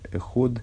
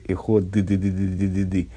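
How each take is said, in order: First: The O vowel is slightly lengthened instead. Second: The final D sound is dragged out at length. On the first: The speaker calls it right. "чуть-чуть продлевается буква О, гласные тянутся" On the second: The speaker calls it wrong. "букву «Д» не надо длить"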